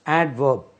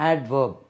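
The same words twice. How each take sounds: First: The d sound is clearly pronounced in the word. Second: The same.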